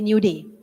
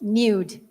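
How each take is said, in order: First: The word is split into two syllables. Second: The word is said as one syllable. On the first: It dodges the platform's word filter. "just say new day" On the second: It is the plain word. "Because if you say nude"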